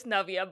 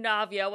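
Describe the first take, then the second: First: Navya with a short 'uh', NUV-ya; correct native pronunciation. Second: Navya with a long open 'ah', NAHV-ya; anglicised pronunciation. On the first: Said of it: "when I know it's Navya". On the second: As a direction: say Navya the code-switched way, as NAHV-ya. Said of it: "hear me pronounce my name". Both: Shown as a demonstration.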